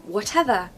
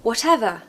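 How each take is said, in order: No difference in how they are said.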